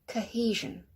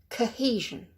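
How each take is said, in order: No difference in how they are said.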